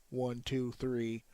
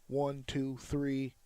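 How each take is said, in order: No difference in how they are said.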